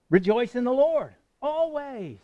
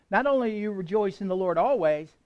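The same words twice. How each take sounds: First: "rejoice in the Lord always" slower, higher and louder, leaning on "Lord"; emphatic repeat. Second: Said in the usual way. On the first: Shown as a demonstration. Preacher repeating the command for emphasis, slower and louder. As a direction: drive home "Lord" with a slow falling close. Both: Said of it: "let me say it again".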